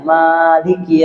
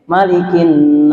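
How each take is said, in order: First: The first vowel is held long. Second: The first vowel is kept short. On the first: "Maliki di Al-Fatihah itu panjang" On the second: "memang pendek"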